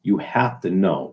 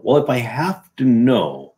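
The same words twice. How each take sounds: First: Mock slow insistence. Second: "Well" drawn out and measured; slow, pointed restatement; slow deliberate repeat. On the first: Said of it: "Everybody says this". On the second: Shown as a demonstration. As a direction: spell out the logic slowly.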